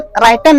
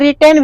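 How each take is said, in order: First: The first vowel sounds like 'eye', ending '-ten'. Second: The first vowel is short 'ih', ending '-ten'. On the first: The speaker calls it wrong. "ऐसे राइटेन नहीं होता है" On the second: The speaker calls it right. "कोई कोई रिटेन भी कह देते हैं"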